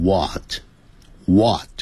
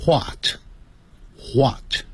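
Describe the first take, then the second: First: "what" starting on a plain w, no h; American "what". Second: "what" with a breathy h before the w, hwot; British "wh" sound. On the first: Teacher shows American and Canadian English, "what" with silent h. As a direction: drop the h, slow open "what". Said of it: "那个h的音就不见了". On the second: Teacher contrasts British English for students, "what" said as hwat. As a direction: start "what" on an audible h puff, slowly. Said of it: "在英式英语念成". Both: Shown as a demonstration.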